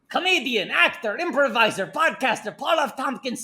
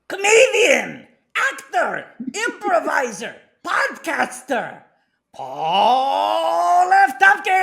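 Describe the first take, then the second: First: It is read in a plain, unexcited way. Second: It is read in an excited way.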